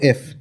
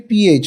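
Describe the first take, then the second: First: Air hisses between the lip and the teeth. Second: A p sound is released with a puff of air. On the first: The speaker calls it wrong. "not f" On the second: The speaker calls it right. "the pronunciation has to be ph"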